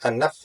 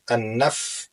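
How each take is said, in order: First: The f sound is cut off abruptly. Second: The f sound flows on with continuing air. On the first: The speaker calls it wrong. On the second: The speaker calls it right. "huruf yang mengalir suaranya"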